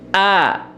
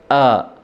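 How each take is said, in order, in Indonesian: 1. Vokalnya jelas, mulutnya terbuka lebar. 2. Vokalnya tidak jelas, mulutnya hampir tidak terbuka. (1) "Ini mulutnya dibuka" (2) "Ini namanya dikulum"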